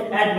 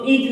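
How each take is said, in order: First: "एट" with a short open e vowel; correct reading. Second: "ईट" with a long ee vowel; wrong reading. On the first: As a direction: say "एट" like English at, no ee. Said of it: "क्या पढ़ना है इसको?". ("एट" को छोटे ए स्वर से पढ़ना) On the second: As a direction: misread it as "ईट", rhyming with feet. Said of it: "इसको ईट नहीं पढ़ना है". ("ईट" को लंबी ई से गलत पढ़ना) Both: Shown as a demonstration.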